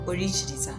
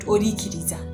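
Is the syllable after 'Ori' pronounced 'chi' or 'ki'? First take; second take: chi; ki. First: The syllable after 'Ori' sounds like 'chi'. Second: The syllable after 'Ori' sounds like 'ki'. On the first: The speaker calls it right. "it's supposed to be pronounced like Orichiriza" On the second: The speaker calls it wrong. "not Orikiriza"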